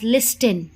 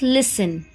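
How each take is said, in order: First: The T sound is clearly pronounced. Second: The T sound is left out. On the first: The speaker calls it wrong. "make sure that you will not pronounce the uh, this word as listen" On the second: The speaker calls it right. "The letter T is silent in this word, so your correct pronunciation is listen"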